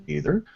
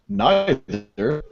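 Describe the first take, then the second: First: "neither" said as NEE-ther; "neither" with long-e. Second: "neither" said as NIGH-ther; "neither" with long-i. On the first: Host listing poll choices to listeners, "neither" pronounced NEE-ther. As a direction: start "neither" like the word "knee". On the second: Host listing poll choices to listeners, "neither" pronounced NIGH-ther. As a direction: start "neither" like the word "nigh". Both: Shown as a demonstration. Says both pronunciations in turn.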